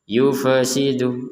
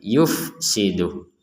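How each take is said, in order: First: An extra vowel is added after the f. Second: The f goes straight on with no vowel. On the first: The speaker calls it wrong. "yufasidu enggak ada e" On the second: The speaker calls it right. "Yang ada fa-nya mati"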